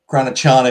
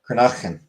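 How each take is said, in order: First: It is said with an American accent. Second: It is said with a Scottish accent.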